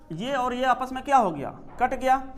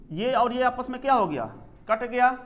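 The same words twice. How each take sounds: The two takes are said the same way.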